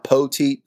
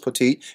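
First: The name is drawn out with a Southern drawl. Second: The name is said short without a drawl.

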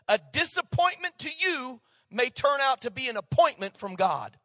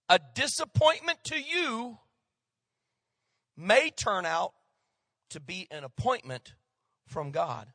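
First: The sentence is spoken at a fast pace. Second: The sentence is spoken at a slower pace. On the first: "I said it too fast" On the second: "so I'm going to say it again"

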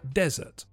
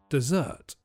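First: The stress is on the first syllable. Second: The stress is on the second syllable. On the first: It names a hot, sandy place. "The stress is on the first syllable for the hot, sandy place" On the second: It names a sweet food. "for the sweet food, the stress is on the second syllable"

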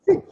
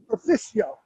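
First: It is said with a classical Latin pronunciation. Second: It is said with an American pronunciation.

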